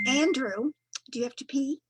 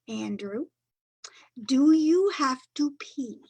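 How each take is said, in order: First: It is said at a normal pace. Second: It is said very slowly and clearly.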